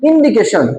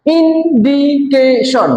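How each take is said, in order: First: Said in the usual way. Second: ইন্ডিকেশন slow and higher, IN, DI, CA, TION; four even beats on ইন্ডিকেশন; broken into syllables. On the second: Shown as a demonstration. Teacher shows four syllables to class, ইন্ডিকেশন split slowly. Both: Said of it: "চারবার উচ্চারিত হয়েছে".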